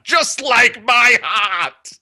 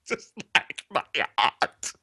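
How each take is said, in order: First: Slow, high, loud heartbroken wail; melodramatic wail. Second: Soft, sighing heartbroken repeat; quiet mournful echo. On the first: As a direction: wail it like a tragic poet. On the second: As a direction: echo it softly, defeated. Quiet echo after wail. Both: Acted.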